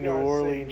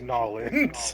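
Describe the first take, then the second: First: It is said in a plain, non-Cajun accent. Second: It is said in a thick Cajun accent.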